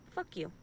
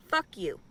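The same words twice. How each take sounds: First: Quiet imagined curse. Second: Louder imagined curse. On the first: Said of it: "I wanna tell him". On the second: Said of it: "That's all I'd say". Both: Pretend.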